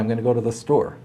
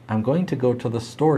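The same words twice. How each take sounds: First: 'Going to' is reduced to 'gonna'. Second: 'Going to' is pronounced fully as two words. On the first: This is how the speaker naturally talks. The speaker calls it right. "The way that I really talk is with bad grammar" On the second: This is scripted, written-style speech. The speaker calls it wrong. "teleprompters had me use correct grammar"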